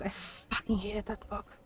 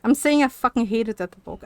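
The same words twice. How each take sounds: First: Much softer, half to herself: "I fucking hated that book"; quiet muttered repeat. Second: Said in the usual way. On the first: Real, not acted. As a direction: drop the voice and mumble "I fucking hated that book" under the breath.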